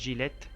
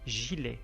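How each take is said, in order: First: The word ends with an audible t sound. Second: The word ends on the vowel, no t. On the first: The speaker calls it wrong. "ما نقولش جيليت" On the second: The speaker calls it right. "مي جيلي"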